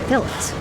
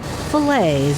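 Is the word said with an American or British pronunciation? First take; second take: British; American. First: It is said with a British pronunciation. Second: It is said with an American pronunciation. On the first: This is how the British buyers say it. "instead of" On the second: This is how the local workers say it. "teach the Brits to call them fillets"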